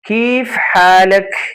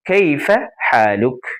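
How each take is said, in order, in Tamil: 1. இது அன்றாட பேச்சு வழக்கு அரபு உச்சரிப்பில் சொல்லப்படுகிறது. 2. இது முறையான நிலையான அரபு உச்சரிப்பில் சொல்லப்படுகிறது. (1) "அரபு நாட்டு பேச்சு வழக்குல" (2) "ஸ்டாண்டர்ட் அரபிக்ல சொல்லுவாங்க"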